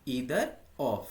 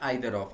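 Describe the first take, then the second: First: The word starts with an 'ee' vowel. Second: The word starts with an 'eye' vowel. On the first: "ईदर of या आइदर of, आप कुछ भी बोल सकते हैं" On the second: "आप कुछ भी बोल सकते हैं"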